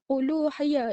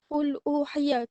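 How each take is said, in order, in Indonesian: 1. Lam membawa vokal u ke kata berikutnya. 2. Lam itu senyap sebelum kata berikutnya. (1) "Lam tu dia akan bariskan dengan dhammah" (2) "Kalau dia sukun"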